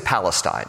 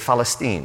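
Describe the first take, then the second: First: The word begins with a P sound. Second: The word begins with a soft F sound. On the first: "They don't say Palestine" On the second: "with a soft F"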